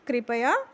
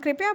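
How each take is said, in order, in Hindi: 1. प पूरा है, उसके बाद एक स्वर है। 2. प् आधा है, उसके बाद कोई स्वर नहीं है। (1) "अब हम कृपया, तो पूरा प यहाँ पर प्रयोग होता है" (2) "पहले हम कृपया बोलते थे"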